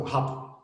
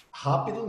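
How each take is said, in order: First: "rápido" clipped to a whispery "hap"; curt, cut-off "rápido", almost just "ráp"; swallowed ending. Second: Said in the usual way. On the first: Shown as a demonstration. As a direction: swallow the last syllables of "rápido". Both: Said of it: "Rápido não".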